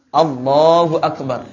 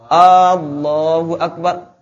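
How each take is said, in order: First: The opening vowel of Allah is kept short. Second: The opening vowel of Allah is drawn out long. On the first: It declares that God is great. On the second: It turns into asking whether God is great.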